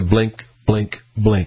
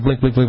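First: The word is repeated at a slow, steady rate. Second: The word is repeated at a fast rate. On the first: The bulbs are all working. "It'll go back to" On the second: A bulb is burnt out. "instead of"

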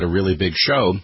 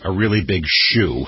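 First: The last word is said like "show". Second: The last word is said like "shoe".

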